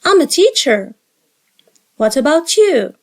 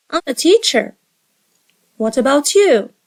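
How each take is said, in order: Both takes have the same delivery.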